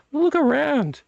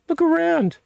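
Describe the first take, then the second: First: Pitched way up to urge the viewer; high excited urging; emphatic. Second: Even higher, louder look around; insistent high call; more emphatic. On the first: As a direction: look around, high and insistent. Urging viewer to look at shelves. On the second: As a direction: push it harder the second time. Repeated higher urging. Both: Real, not acted.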